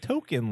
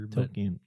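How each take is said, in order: First: The name sounds just like the word token. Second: The name does not sound like the word token. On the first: The speaker calls it wrong. "You said like token, like an arcade token. Which isn't right" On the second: The speaker calls it right. "It's like Tolkien or whatever"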